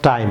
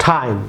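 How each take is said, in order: First: টাইম as learners wrongly say it; wrong time. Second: টাইম with an aspirated English T; টাইম said with a breathy English T; correct time. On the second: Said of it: "বলুন টাইম". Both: Shown as a demonstration.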